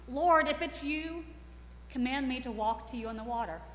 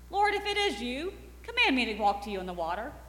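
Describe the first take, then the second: First: The voice sounds unsure, like pleading for a sign. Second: The voice sounds confident and self-assured. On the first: The speaker is secretly asking for reassurance. "he's lacking confidence but doesn't want anyone else to know" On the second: The speaker is showing off in front of friends. "He likes to sound confident and self-assured in front of them"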